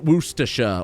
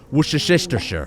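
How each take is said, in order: First: Many letters are dropped, making it short. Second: Every written letter is sounded out in full. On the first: This is how the British say it. "take out all the letters" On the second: This is how Americans say it. "the Americans have nailed it"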